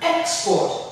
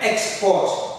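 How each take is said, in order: First: The stress is on the first syllable. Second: The stress is on the second syllable. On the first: It is a noun: goods sent abroad. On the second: It is a verb: to send goods abroad.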